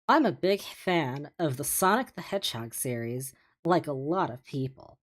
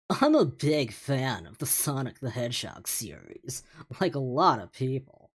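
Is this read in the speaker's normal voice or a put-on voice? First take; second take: normal; put-on. First: It is read in the speaker's ordinary voice. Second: It is read in a put-on character voice.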